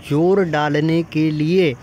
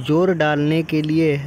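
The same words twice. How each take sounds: The two takes are said the same way.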